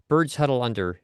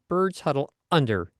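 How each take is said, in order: First: The words flow smoothly into "under" without a break. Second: A tiny glottal catch comes right before "under."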